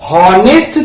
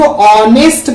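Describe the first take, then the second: First: The word starts with an audible h sound. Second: The word starts with a vowel, no h sound. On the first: The speaker calls it wrong. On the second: The speaker calls it right.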